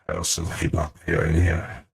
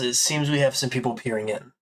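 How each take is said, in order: First: It is said in a strange put-on voice. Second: It is said in a plain normal voice.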